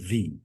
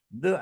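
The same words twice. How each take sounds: First: The word ends in a long 'ee' vowel. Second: The word ends in a short 'uh' vowel. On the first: It is the form used before a vowel sound. "menjadi the" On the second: It is the form used before a consonant sound. "The akan berubah"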